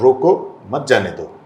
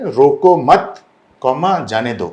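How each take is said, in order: First: "रोको", short break, then "मत जाने दो" together; pause moved after रोको. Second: "रोको मत" said as one louder phrase, then "जाने दो"; pause after मत. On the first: Director mimics media shifting the comma, pausing after "रोको". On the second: Director shows how words get twisted, pausing after "मत". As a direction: break after "मत", saying "comma" aloud before "जाने दो". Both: Shown as a demonstration. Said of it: "comma shift कर देता है".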